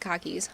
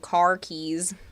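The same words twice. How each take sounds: First: The r is dropped, sounding like khakis. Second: The r in car is clearly pronounced. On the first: "it sounds like khakis" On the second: "I know I should be saying car keys"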